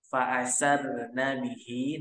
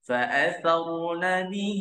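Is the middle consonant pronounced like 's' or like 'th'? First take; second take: s; th. First: The middle consonant is a hissing 's' sound. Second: The middle consonant is a soft 'th' sound. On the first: The speaker calls it wrong. "Jangan kita pakai sin ya. ... itu salah" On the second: The speaker calls it right. "huruf sa makhrajnya terletak pada ujung lidah bertemu ujung gigi sari atas"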